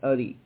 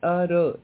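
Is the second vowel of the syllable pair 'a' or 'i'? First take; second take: i; a. First: The second vowel is an 'i' sound. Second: The second vowel is an 'a' sound. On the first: The speaker calls it wrong. "not A-R-I, Ari" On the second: The speaker calls it right. "Ara, not A-R-I"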